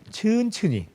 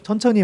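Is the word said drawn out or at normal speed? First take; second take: drawn out; normal. First: The word is said slowly and drawn out. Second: The word is said at normal speed. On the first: The speaker calls it right. "충청도식으로" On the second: The speaker calls it wrong. "말고"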